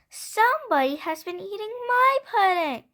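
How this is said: It is said in a middle-sized voice.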